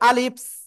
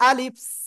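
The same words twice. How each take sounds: The two takes are said the same way.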